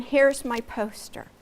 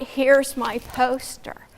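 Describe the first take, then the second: First: Said in the usual way. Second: Here's my poster drawn out slowly; slow, overdone delivery. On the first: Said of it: "So learn to stand". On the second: Shown as a demonstration. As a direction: drag out Here's my poster like a bad pitch.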